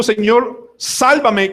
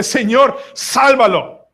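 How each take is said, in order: First: High-pitched drowning plea; crying out for rescue. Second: High, forceful plea from the boat; crying out for another. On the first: Preacher acting the drowning man's cry, crying out. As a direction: call out urgently to be saved. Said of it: "Si él está gritando". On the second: Preacher acting those in the boat, crying out. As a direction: call out to God to rescue him. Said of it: "qué debe estar gritando los que están en el bote". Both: Acted.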